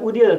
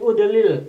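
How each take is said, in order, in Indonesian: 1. Konsonan yang berulang digabung. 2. Konsonan yang berulang dipisah. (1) "bukan Udil" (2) "tapi Udilil. Dipecah"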